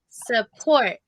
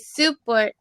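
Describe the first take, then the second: First: The stress is on the second syllable. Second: The stress is on the first syllable. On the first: The speaker calls it right. "don't put the emphasis on sa. It's support" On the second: The speaker calls it wrong. "if you say support, support, it sounds like it's hard for me to recognize it"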